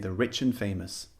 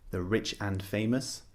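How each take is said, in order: First: The word 'and' is reduced to a short 'n'. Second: The word 'and' is said fully and clearly. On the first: The speaker calls it right. "This is typically how we speak" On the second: The speaker calls it wrong. "We don't say the rich and famous"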